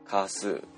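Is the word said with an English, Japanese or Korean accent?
Korean. It starts with a tense, unvoiced Korean consonant. "息の伴わない濃音として発音されます"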